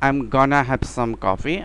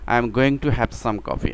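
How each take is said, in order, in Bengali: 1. 'Going to' সংক্ষেপ হয়ে 'gonna' হয়। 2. 'Going to' পুরোটা বলা হয়। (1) "গনা ইউজ করা হয়" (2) "আমরা বাঙালিরা অনেক সময় এরকম বুঝি"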